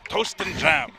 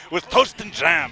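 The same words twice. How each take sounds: First: Hammed-up British accent, higher and louder; mock British accent. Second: Hammed-up British accent, higher and louder; a bad British accent put on for laughs; terrible British accent. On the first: Co-commentator repeats the quote, mock British accent. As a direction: toast said the British way, long and rounded. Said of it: "But he would say toast, right?". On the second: Co-commentator riffing on a quote, bad British accent. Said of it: "That was a terrible accent by me".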